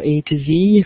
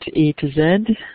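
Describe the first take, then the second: First: The letter Z is said the American way. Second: The letter Z is said the non-American way.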